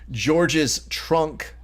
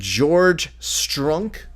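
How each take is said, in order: First: The s sound ends the first word. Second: The s sound begins the second word.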